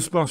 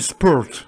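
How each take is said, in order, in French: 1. Le mot se prononce à la française. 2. Le mot se prononce à l'anglaise. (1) "C'est pas Vive le sport sur Antenne deux" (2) "C'est sport"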